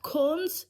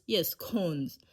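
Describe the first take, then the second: First: CONES rising high, as a question. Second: CONES falling, settled at usual pitch; confirming. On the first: Checking the word with herself, questioning CONES with a high rise. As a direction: lift CONES sharply into a question. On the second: Answering her own doubt about the word, confirming CONES with a falling tune. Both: Real, not acted.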